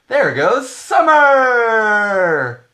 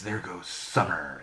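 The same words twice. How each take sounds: First: It is said in a bright, upbeat tone. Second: It is said in a dark, ominous tone.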